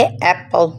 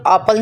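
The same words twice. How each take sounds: First: एप्पल opening on "ae"; correct vowel. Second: एप्पल opening on a back "aa"; wrong pronunciation. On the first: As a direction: say एप्पल as "ae-pal". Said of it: "इसे हम पढ़ेंगे". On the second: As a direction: say एप्पल as "aa-pal". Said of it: "एप्पल नहीं पढ़ेंगे". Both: Shown as a demonstration.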